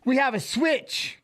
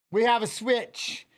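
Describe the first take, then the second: First: A high, drawn-out announcement; announcing, raised pitch. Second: Said in the usual way. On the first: Shown as a demonstration. Streamer trying out the opening line, high and slow. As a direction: lift it up and stretch it. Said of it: "do I say that?". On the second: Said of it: "Can I say that then?".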